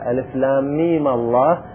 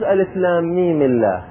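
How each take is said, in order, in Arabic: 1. تأتي بعد الميم الأخيرة حركة 'a'. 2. تأتي بعد الميم الأخيرة حركة 'i'. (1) "لكن الفتح أفضل" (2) "بالكسر على الأصل"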